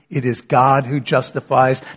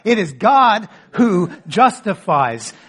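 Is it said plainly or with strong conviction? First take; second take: plainly; strong conviction. First: It is said plainly, without special emphasis. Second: It is said with firm, strong conviction.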